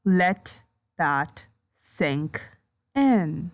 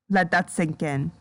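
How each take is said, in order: First: Low, slow "Let that sink in" with a pause after each word; word-by-word emphasis. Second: Said in the usual way. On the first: Real, not acted. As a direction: space out "Let that sink in" one word at a time. Repeats it word by word.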